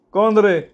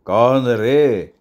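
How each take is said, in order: First: High-pitched "who's there" query; questioning old man. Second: Very slow, drawn-out echo; mocking echo. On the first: Acted. Old man squints at his visitors, questioning. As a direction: ask sharply upward in a high old voice. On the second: Gang boss throws the old man's question back, mocking. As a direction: stretch each word out in mock question.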